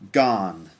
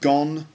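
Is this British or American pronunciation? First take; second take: American; British. First: The vowel is an open unrounded 'ah' sound. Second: The vowel is a short rounded 'o' sound.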